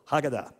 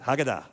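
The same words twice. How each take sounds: First: Haggadah with DAH stressed; Haggadah, accent on the end as the teacher explains; stress on the last syllable. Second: Haggadah with the stress on the last syllable, hah-gah-DAH; teacher models Haggadah for the class; Hebrew pronunciation. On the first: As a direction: punch the final syllable of Haggadah. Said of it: "Accent's always on the last syllable". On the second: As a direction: land the accent on DAH. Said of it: "Can you say that?". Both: Shown as a demonstration.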